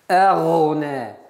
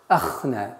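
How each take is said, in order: First: The middle consonant is a voiced 'gh' sound. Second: The middle consonant is a voiceless 'kh' sound. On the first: The speaker calls it right. "Гайн твердый" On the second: The speaker calls it wrong. "чтобы не звучало звук х"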